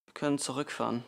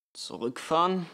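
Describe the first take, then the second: First: Said in the usual way. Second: Louder, questioning "Zurückfahren?"; incredulous echo. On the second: A narrator's reading. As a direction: throw the word back in disbelief. Father incredulously echoes her suggestion. (ungläubige Rückfrage)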